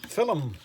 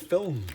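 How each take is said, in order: First: It is said in the local regional way. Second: It is said in the standard way. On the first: The speaker calls it wrong. "now people say film" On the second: The speaker calls it right. "it's not film, it's film"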